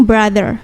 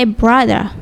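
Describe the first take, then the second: First: "brother" ending in a sounded, curled R; American rhotic "brother"; American R pronounced. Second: "brother" ending in an open "-uh", no R; non-rhotic British "brother", like "bradah"; British dropped R. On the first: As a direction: say "brother" with the final R clearly voiced. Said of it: "R-nya di rolling seperti itu". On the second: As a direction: drop the final R of "brother". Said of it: "But kalau di British". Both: Shown as a demonstration.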